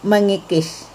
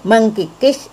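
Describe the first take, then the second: First: No K sound follows the meng sound. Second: A K sound follows the meng sound. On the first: The speaker calls it right. "harusnya luluh menjadi mengikis" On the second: The speaker calls it wrong. "mengkikis itu salah"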